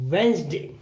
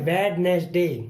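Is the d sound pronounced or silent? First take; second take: silent; pronounced. First: The d sound is left out. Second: The d sound is clearly pronounced. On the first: The speaker calls it right. "डी नहीं बोलेंगे" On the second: The speaker calls it wrong. "जो कि गलत होता है"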